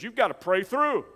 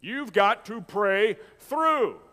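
First: "You've gotta pray through" run together in a raised voice; old-timers' exhortation. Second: "You've got to pray through" very slow, word by word; drawn-out exhortation. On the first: Preacher quoting the old timers to the church, quick raised exhortation. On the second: Preacher repeating the old timers' saying for emphasis, slow drawn-out exhortation. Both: Retold or imitated. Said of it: "used to say it like this".

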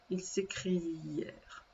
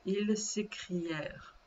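First: "s'écrièrent" drawn out softly on the ending; slow dictation. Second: Said in the usual way. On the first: Shown as a demonstration. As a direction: repeat "s'écrièrent" slowly and quietly, stretching "-ièrent". Conjugation repeated slowly for spelling. (« s'écrièrent » répété doucement, en étirant la fin)

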